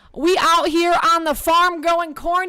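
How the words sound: It is said in a put-on Southern accent.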